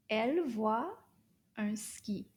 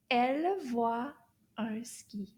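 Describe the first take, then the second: First: Said in the usual way. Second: Model sentence. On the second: Shown as a demonstration. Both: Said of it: "Let's say it all together".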